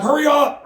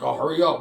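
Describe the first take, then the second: First: Urgent hurry up. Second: Said in the usual way. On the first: Retold or imitated. Urgent call to open the door.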